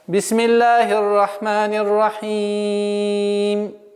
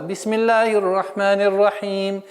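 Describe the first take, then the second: First: The final vowel is held for four counts. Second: The final vowel is held for two counts. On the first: "выберем четыре огласовки для полноты произношения окончаний" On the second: "Если мы применяем правило удлинения два раза"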